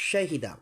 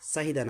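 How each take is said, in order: First: The word begins with an sh sound. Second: The word begins with a plain s sound. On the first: The speaker calls it right. "এভাবে উচ্চারণ করবেন। শাহিদা" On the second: The speaker calls it wrong. "সাহিদা না"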